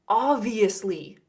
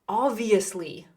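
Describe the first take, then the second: Both takes have the same delivery.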